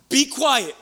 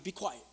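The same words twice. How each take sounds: First: Raised, higher order for silence; emphatic command. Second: Low, very soft request; kind, mild version. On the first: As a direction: order them silent with force. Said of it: "I don't really think he said". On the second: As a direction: say it gently, almost under the breath. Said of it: "translation of the Bible is very kind". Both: Acted.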